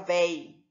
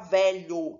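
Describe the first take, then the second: First: The word is cut down to one syllable. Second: The word is said in full, with two syllables. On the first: This is the reduced regional form. "a pessoa fala véi" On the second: This is the standard form. "a pessoa não fala velho"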